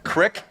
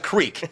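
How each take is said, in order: First: The word is said the Pittsburgh way. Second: The word is said the standard way. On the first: The speaker calls it wrong. "you have a stupid language over there in Pittsburgh" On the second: The speaker calls it right. "it's a creek"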